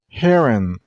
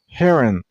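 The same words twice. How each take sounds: First: The stress is on the first syllable. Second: The stress is on the first syllable.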